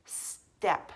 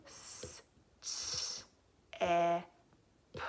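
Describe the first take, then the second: First: Said in the usual way. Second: "S, s, e, p" as separate s, t, e, p sounds; sounding out. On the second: Shown as a demonstration. Teacher counting sounds with pupils, step segmented. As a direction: break step into four sounds with long gaps. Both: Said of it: "How many sounds in this one?".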